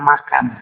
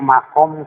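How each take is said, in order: First: The second vowel sounds like 'a'. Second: The second vowel sounds like 'o'. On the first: A grave. The speaker calls it wrong. "Di sini ada salah pengucapan" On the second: The place where Ibrahim stood. The speaker calls it right. "makom itu tempat Ibrahim dulu berdiri"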